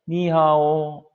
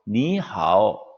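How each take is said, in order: First: The syllables carry no distinct pitch tones. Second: Each syllable carries its own pitch tone. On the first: "니하오 없죠. 예, 여기는 성조가 없어요" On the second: "이게 성조가 니하오. 이게 정확한 중국인의 발음인데"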